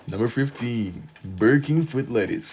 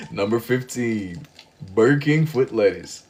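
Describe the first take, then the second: First: A fair mock of the Burger King foot lettuce narrator; Number 15 meme voice. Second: Slow, clumsy first try at the Number 15 meme voice; a half-hearted stab at the foot lettuce guy; botched meme voice. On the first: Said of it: "That's how he would talk". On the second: Retold or imitated. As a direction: fumble the meme line, dragging it out. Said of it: "that was genuinely garbage".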